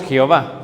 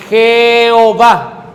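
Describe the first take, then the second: First: Said in the usual way. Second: JEHOVÁ stretched out loud, syllable by syllable; Jehová silabeado. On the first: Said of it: "Nosotros le llamamos". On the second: Shown as a demonstration. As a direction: draw out each vowel of Jehová, emphatically. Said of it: "por eso le llaman". (Jehová alargado, sílaba por sílaba, con fuerza)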